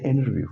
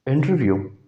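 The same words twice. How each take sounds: First: "इंटरव्यू" as "innerview"; American "इंटरव्यू", N straight into R; American silent T. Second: Said in the usual way. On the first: Shown as a demonstration. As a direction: drop the T in "इंटरव्यू". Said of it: "टी की आवाज़ नहीं देते". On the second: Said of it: "American कहते हैं".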